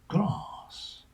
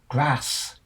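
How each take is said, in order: First: The vowel is a long a as in farm. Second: The vowel is a short a as in at.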